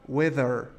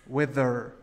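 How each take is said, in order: Both takes have the same delivery.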